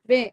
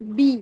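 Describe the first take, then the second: First: The vowel is a mid 'ay' sound. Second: The vowel is a clear high 'ee' sound. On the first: The speaker calls it wrong. "ये बे हो जाता है बी की जगह" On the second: The speaker calls it right. "नीचे वाला होंठ ... नीचे की तरफ चली जाती है"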